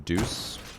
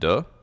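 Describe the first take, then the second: First: It rhymes with 'Zeus', starting with D. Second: It sounds like the French word 'deux'. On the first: "like Zeus, but with a D" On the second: "Duh, like the French word"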